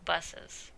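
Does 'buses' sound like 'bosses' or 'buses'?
buses. The first vowel sounds like standard 'buses'. "is buses"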